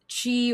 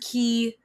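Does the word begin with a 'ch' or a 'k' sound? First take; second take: ch; k. First: The word begins with a 'ch' sound. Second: The word begins with a 'k' sound.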